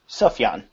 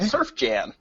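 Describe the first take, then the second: First: The first syllable has no R sound. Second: The first syllable has an R sound.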